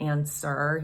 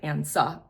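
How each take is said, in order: First: The word ends with an r-colored vowel. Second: The word ends with an open ah vowel. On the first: "rather than saying like answer" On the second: "leaving it more open so that you get more of a resonant sound"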